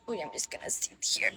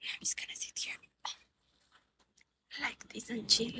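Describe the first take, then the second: First: Soft unvoiced whisper; hushed whisper to the viewers. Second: Murmured whisper, barely audible. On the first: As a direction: breathe the words, no voice. Whispering to stream while sitting. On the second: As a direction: whisper it like you're settling in to chill. Whispering repeat while sitting. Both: Real, not acted.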